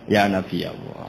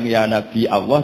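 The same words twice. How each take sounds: First: A smooth glide comes after Nabi. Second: A glottal stop comes after Nabi. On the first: This is the form the Quraysh used. "tapi ya" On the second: This is the form the Quraysh avoided. "Orang Quraisy enggak suka bilang"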